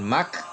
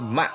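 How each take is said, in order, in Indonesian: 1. Suku kata ini berakhir dengan bunyi K. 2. Suku kata ini berakhir dengan hamzah (glottal stop). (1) "bukan mak" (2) "dibaca dengan hamzah sukun jadi ma"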